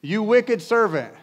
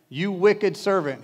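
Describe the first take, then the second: First: Much higher, louder, slow and furious; angry rebuke. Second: Slow and louder, a hint of a stern master; stern rebuke. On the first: Master condemning the wicked servant, loud hammed-up anger. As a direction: roar the accusation, slowly. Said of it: "In anger". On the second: Master rebuking David in mild mock anger, slowly. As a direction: drag out the accusation heavily. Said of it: "he said". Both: A narrator's reading.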